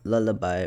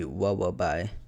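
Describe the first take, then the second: First: The L sounds are said as normal L. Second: The L sounds are replaced with W sounds.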